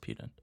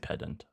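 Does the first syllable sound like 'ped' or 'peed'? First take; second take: peed; ped. First: The first syllable sounds like 'peed'. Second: The first syllable sounds like 'ped'. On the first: "I'm pretty sure it's pedant" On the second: "I guess you could say pedant"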